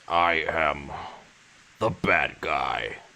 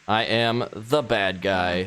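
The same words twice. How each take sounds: First: It is said in a put-on king voice. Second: It is said in the speaker's normal voice.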